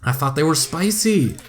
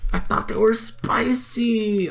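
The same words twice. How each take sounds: First: Said in the usual way. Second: Breathy whispered repeat. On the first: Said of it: "repeated as whisper". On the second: Real, not acted. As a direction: whisper it to yourself in dismay. Whispered repeat of own line.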